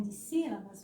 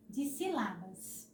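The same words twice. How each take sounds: First: Said in the usual way. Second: Dissílabas slowly as di-si-LA-bas; wrong stress on LA. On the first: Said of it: "Se não colocar em". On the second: Shown as a demonstration. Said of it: "vai ficar dis". (dissílabas com a tônica no LA: dissilábas)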